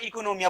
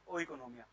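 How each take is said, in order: First: The word begins with an 'ee' sound. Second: The word begins with a separate 'oh' sound. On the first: This is how the word is properly pronounced. "सही प्रोनाउंसिएशन पूछ ले तो तुम अनपढ़ ना लगो, तो याद है ना, इकोनोमिया बोलते हैं" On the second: This says it as spelled, to remember the spelling. "But हमें नंबर चाहिए, हमें सही करना है, इसमें हम क्या बोलेंगे इसे?"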